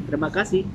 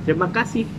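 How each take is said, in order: Both takes have the same delivery.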